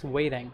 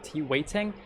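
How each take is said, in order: First: "waiting" in American, like "wading"; American-accent "waiting", T turned to D. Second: "waiting" with a clear T mid-word; British-style T. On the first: Co-teacher to American-accent learners, "waiting" with D for T. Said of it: "trying to learn some American accent". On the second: Co-teacher showing the more British form, "waiting" with clear T. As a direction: say "waiting" pronouncing T as T. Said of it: "I think it's more British". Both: Shown as a demonstration.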